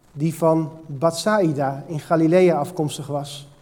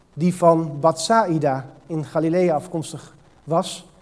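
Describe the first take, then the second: Both takes have the same delivery.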